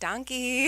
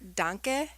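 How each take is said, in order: First: It is said like the English word donkey. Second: It is said like the German word danke. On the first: "I always pur- purposely mispronounce it" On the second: "danke is thank you"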